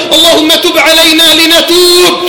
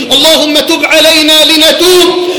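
The two takes are said the same way.

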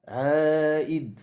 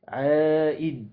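Both takes have the same delivery.

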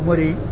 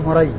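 First: The name is said with the nisba ending pattern. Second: The name is said with the diminutive vowel pattern. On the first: "والنسب يعني مري" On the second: "إذا كان بالتصغير فهو مري"

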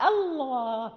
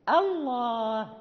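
The two takes are said the same way.

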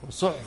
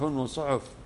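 First: The middle letter is said with no vowel. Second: The middle letter is said with a u vowel. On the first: "ينطق بالسكون، سكون الوسط" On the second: "وبضم الحرف الأوسط"

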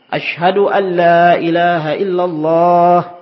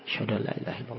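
First: It is said in a loud voice. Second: It is said in a very soft voice. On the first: "diulangi lagi dengan suara yang keras" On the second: "dengan suara yang lirih. Kecil sekali"

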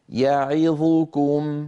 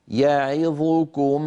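No difference in how they are said.

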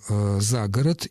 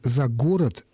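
First: The stress falls on the preposition. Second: The stress falls on the noun. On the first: This is today's main form. The speaker calls it right. "именно этот вариант является основным сегодня" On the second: This form is long outdated. The speaker calls it wrong. "очень давно устарел"

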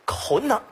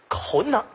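First: The middle syllable is swallowed into two syllables. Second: The same.

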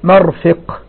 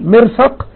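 First: The first vowel is a, the second i. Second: The first vowel is i, the second a. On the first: The speaker calls it wrong. "بدل ما تقول مرفق" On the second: The speaker calls it right. "بكسر ثم فتح أفصح من عكسه، يعني تقول مرفق"

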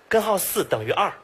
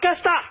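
First: Every syllable is pronounced clearly in full. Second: Most syllables are swallowed into a short blur. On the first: "他说的是" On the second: "吃字最严重的"

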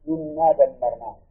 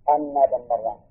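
First: The first word begins with an 'i' vowel. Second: The first word begins with an 'a' vowel. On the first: The clause starts a new statement explaining the outcome. "وكسرها" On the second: The clause explains the outcome as a substitute for it. "قراءة فتح الهمزة"

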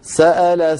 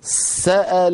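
First: The s is short, followed at once by the vowel. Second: The s is pressed and held, sounding doubled. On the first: The speaker calls it right. "ولا أضغط زيادة على السين" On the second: The speaker calls it wrong. "هذا لا يصح. سأل صار كأنني نطقت سين ساكنة وأتبعتها بسين مفتوحة"

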